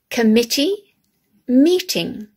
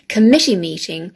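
First: Each sound is pronounced in an exaggerated way. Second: The phrase is said naturally, without exaggeration. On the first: "this exaggerated way" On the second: "how we normally say them"

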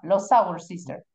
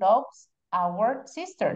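First: Loves and our run together as one sound. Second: Loves and our are said as separate words. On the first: The speaker calls it right. "They join" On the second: The speaker calls it wrong. "That's why we don't say John loves our sister"

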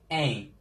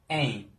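No difference in how they are said.

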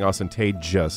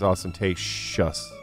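First: The last syllable is said with a 'j' sound, like 'jus'. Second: The last syllable is said with an 'sh' sound, like 'shus'. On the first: The speaker calls it wrong. "You were saying ostentatious" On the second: The speaker calls it right. "It's ostentatious"

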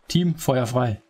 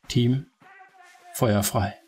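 First: The phrase is spoken quickly. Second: The phrase is spoken slowly. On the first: The speaker calls it right. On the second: The speaker calls it wrong.

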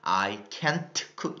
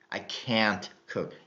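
First: The vowel in can't is short and clipped. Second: The vowel in can't is long and drawn out. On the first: The speaker calls it wrong. "I can't cook 이게 아니라" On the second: The speaker calls it right. "좀 더 발음을 길게 끄시면서"

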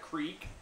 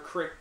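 First: The word has a long ee vowel. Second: The word has a short i vowel.

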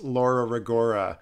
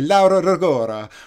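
First: The name is said in a plain Canadian accent. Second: The name is said in a put-on foreign-style accent. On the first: "the way I just pronounced it" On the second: "I'm too Canadian to say Laura Rigora or anything like that"

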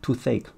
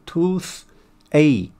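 First: The consonant runs smoothly into the following vowel. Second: The two parts are said separately with a break. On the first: "后面元音可以连读" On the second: "你要分开就是"

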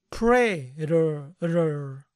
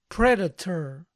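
First: The middle T is softened, almost like D. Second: The middle T is a clear, crisp T. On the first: "la gran mayoría va a suavizar la T y se va a oír más Predator" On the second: "lo pueden pronunciar Predator"

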